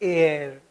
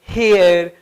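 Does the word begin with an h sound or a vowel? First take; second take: Vowel; H sound. First: The word starts directly with a vowel sound. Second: The word starts with an audible h sound. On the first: The speaker calls it right. "ये जो एच है ये mute हो गया" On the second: The speaker calls it wrong. "कभी इसको ... हेयर ... नहीं पढ़ेंगे"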